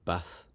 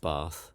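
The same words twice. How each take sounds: First: It has a northern English vowel. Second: It has a southern English vowel. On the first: This is how the speaker says it. "Some of my vowel sounds are still northern though. I say bath" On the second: This is not how the speaker says it. "and not bath"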